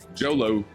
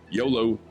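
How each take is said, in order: First: The word begins with a J sound. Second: The word begins with a Y sound.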